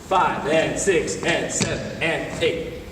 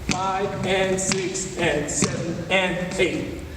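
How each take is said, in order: First: The counting is faster still. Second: The counting is somewhat faster.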